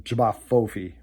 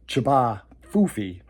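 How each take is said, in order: First: The name is said in a harder, fearsome-sounding way. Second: The name is said in a soft, silly-sounding way. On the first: This version fits the creatures better. "I tweaked the pronunciation to the more fearsome Jabba Fofi" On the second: This is the original name. "technically the cryptid is called a Jabba Fofi"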